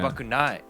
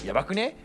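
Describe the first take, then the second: First: The word ends with a full 'nai' sound. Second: The word ends with a shortened 'ne' sound. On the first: "Like I used to say yabakunai" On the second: "I try to do like the ne"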